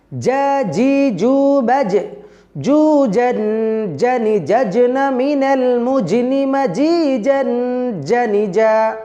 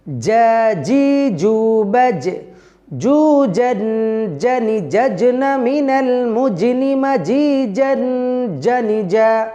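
First: Slow drill chant again. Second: جا جي جو بج very slow, drawn-out chant; chanted, stretch every syllable of جا جي جو in a slow singsong; slow drill chant. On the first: Chanted, teacher repeating the Arabic drill for students, slow singsong. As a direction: sing جا جي جو slowly with firm jim. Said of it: "এইভাবে ... মশক করবেন". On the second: Teacher chanting the Arabic jim drill, very slowly. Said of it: "ভিন্ন প্রসেসে মস্ক করি". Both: Shown as a demonstration.

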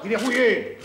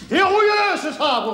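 First: Said in the usual way. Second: Indignant repeat. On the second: Acted. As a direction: repeat it like an indignant old man.

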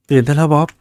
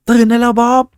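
First: Said in the usual way. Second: Much higher and louder, calling out hard; loud shout. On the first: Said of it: "ขอโทษ เสียงดัง". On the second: Real, not acted. Gamer reading the game's wake-up line, loud shout. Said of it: "ผมอ่านนะ ขอโทษ เสียงดัง".

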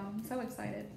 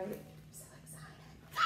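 First: Said in the usual way. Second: Breathy hushed I'm so excited; whispered excitement. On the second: Real, not acted. Telling viewers in a hush, whispered excitement. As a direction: whisper it like a secret thrill.

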